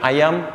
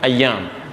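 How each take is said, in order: First: The y sound in the middle is short. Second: The y sound in the middle is doubled. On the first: It means chicken, not days. The speaker calls it wrong. "bukan satu, bukan ayam" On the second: It means days. The speaker calls it right. "Tapi y-nya double ya"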